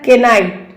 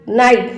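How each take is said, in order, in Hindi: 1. इस शब्द की शुरुआत k की आवाज़ से होती है। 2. इस शब्द की शुरुआत n की आवाज़ से होती है।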